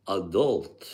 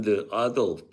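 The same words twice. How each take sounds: First: "adult" stressed on the second syllable, a-DULT; right stress. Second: "adult" stressed on the first syllable, AH-dult; wrong stress. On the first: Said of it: "Then I found out it's adult". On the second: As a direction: say "adult" as AD-ult. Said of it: "I always pronounce that as adult". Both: Shown as a demonstration.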